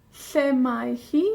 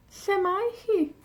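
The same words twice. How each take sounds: First: Said in the usual way. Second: High, bright-pitched Lle mae hi; high model question. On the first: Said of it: "model question". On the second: Shown as a demonstration. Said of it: "repeat higher".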